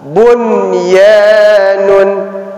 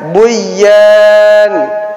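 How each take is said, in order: First: The n sound is heard clearly. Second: The n sound is merged away. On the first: The speaker calls it right. "maka dia dibaca jelas" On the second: The speaker calls it wrong. "seharusnya bacanya buyan"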